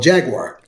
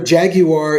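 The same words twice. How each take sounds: First: It is said with an American pronunciation. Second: It is said with a British pronunciation. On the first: "the car that we call" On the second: "the way the British pronounce"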